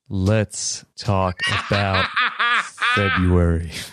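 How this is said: It is said in a deep voice.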